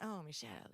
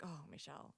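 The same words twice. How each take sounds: First: Exaggerated Italian accent with a laugh. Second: Said in the usual way. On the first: Shown as a demonstration. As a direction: say it like a playful Italian. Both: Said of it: "and I do an Italian accent".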